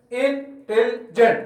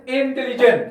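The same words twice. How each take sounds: First: Intelligent broken into three beats, in, tel, jent; syllable by syllable. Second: Said in the usual way. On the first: Shown as a demonstration. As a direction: slowly separate each part of intelligent with a pause. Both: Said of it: "three syllables".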